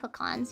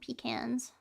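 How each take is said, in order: First: The word is said the local way. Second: The word is said the northern way. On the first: This is how people here say it. "but we call them pecans here" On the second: This is how people up north say it. "A lot of people like up north seem to call them pecans"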